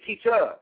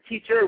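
First: The word ends with an open 'ah' sound. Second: The word ends with an r-colored 'er' sound. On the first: "we say A on" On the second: "he only says it E-R"

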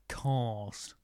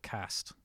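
First: The vowel is a long broad A. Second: The vowel is a short flat A. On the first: "instead of cast" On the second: "using a short A for cast"

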